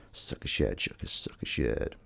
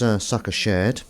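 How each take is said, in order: First: Soft unvoiced whisper of sucker shared. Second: Said in the usual way. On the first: Shown as a demonstration. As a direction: breathe sucker shared out softly. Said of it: "first said plainly". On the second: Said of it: "repeats it whispered".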